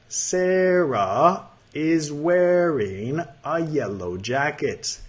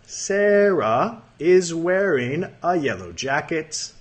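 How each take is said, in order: First: It is read more slowly. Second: It is read at normal speed.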